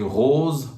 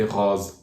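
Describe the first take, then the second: First: ROSE with a closed, rounded OH. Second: ROSE with an open O, near "roz". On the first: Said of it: "closed O as open O". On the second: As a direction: regional French "rose", vowel opened up. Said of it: "pronounce the closed O as open O". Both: Shown as a demonstration.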